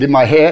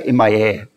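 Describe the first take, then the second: First: The last word starts with an h sound. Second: The last word starts with a vowel sound. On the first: "If I said in my hair"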